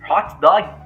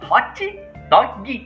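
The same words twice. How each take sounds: First: It ends on the consonant without an extra vowel. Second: It ends with an added 'ee' vowel, Brazilian style.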